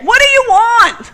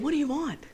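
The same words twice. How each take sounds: First: It is hollered loudly, as if shouted. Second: It is said at normal volume.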